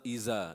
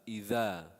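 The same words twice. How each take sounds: First: The middle consonant is a buzzing z sound. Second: The middle consonant is a soft th sound. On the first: The speaker calls it wrong. "So it's not إذا" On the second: The speaker calls it right. "You stick out the tongue a little bit"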